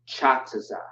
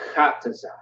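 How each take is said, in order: First: The name begins with a ch sound. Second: The name begins with a hard k sound. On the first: The speaker calls it wrong. "It's not ch" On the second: The speaker calls it right. "it's k"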